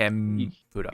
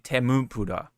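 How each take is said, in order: First: The m runs straight into the p. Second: An extra u vowel separates m and p. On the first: The speaker calls it right. "Tem with the M" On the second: The speaker calls it wrong. "you don't say temupura"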